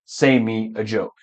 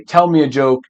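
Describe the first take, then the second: First: Softer, lower wrong version; wrong example. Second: Said in the usual way. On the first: Shown as a demonstration. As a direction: drop the voice for the mistake. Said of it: "and not". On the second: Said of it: "So you would say".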